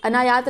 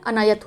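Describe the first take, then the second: First: अनायात said with a long aa in the middle syllable, a-naa-yaat; wrong long vowel. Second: अनायत said with a short a in the middle syllable, a-na-yat; correct short vowel. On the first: Teacher shows students the common wrong form, long aa in अनायात. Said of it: "अनायात नहीं होता है". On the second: Teacher gives students the correct form, short a in अनायत. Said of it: "अनायत होता है". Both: Shown as a demonstration.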